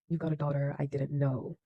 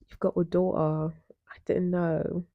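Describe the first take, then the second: First: It is said in the speaker's usual accent. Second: It is said in a put-on British accent.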